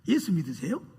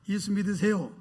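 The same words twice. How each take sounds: First: It sounds mocking and doubtful. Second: It sounds like an earnest invitation to believe.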